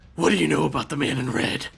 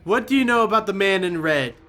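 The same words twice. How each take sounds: First: It is said in a gruff Batman voice. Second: It is said in a normal voice.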